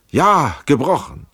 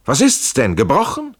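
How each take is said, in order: First: Loud high "Ja", then "gebrochen" falling; anguished confirmation. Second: Loud, high question rising on "gebrochen"; urgent question. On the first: Injured Schell answers Trenck, "gebrochen" as anguished confirmation. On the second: Trenck checks his injured friend, urgent question on "gebrochen". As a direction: ask "gebrochen?" with a steep lift in pitch. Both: A narrator's reading.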